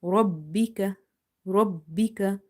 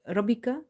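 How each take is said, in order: First: "Rabbika" with the b held and doubled; emphasized double ba. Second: "Rabbika" said quickly with only one b; single-b Rabbika. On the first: Teacher showing ba pronounced twice, held double b. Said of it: "Emphasize on ba in order to pronounce it twice". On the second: Teacher showing the mistake of missing one ba, single b. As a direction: skip the doubling, a light short b in "Rabbika". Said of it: "you will miss one ba". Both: Shown as a demonstration.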